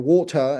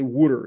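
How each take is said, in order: First: It is said in a British accent. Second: It is said in a New York accent. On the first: "people in Britain say" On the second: "in New York they say"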